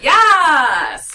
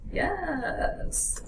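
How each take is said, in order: First: It is said with lively enthusiasm. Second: It is said flatly, without enthusiasm.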